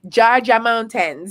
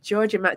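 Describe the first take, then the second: First: It is said in a Jamaican accent. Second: It is said in a plain American accent.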